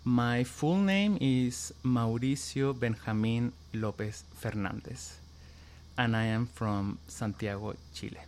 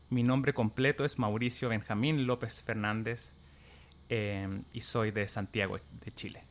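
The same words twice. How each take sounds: First: Said in the usual way. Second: The name said in native Chilean Spanish; Spanish version. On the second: Shown as a demonstration. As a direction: say it again the way you would at home in Chile. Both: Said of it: "what is your name and where are you from?".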